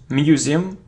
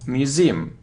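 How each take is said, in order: First: The stress is on the first syllable. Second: The stress is on the second syllable. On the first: The speaker calls it wrong. "it isn't museum" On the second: The speaker calls it right. "the stress is on the second syllable"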